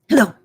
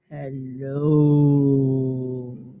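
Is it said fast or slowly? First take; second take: fast; slowly. First: It is said very fast. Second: It is said very slowly.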